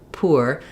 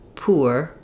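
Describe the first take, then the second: The two takes are said the same way.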